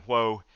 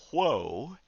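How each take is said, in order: First: Said in the usual way. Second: Mild mock call, higher and swooping; retold yell. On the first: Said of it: "after yelling". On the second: Boys out riding the horse, mock yell. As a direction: play at halting a horse without really shouting. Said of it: "would yell".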